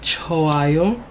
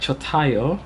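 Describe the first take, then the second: First: The middle consonant is silent, with no t sound. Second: A t sound is pronounced in the middle. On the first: The speaker calls it right. "If you notice, I said choayo" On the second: The speaker calls it wrong. "you would hear like chotayo, but that's not how you say it actually"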